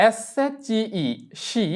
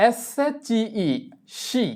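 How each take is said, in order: Both takes have the same delivery.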